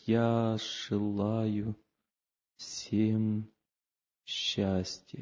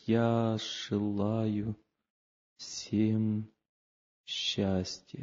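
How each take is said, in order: First: It is said slowly and with real feeling. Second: The same.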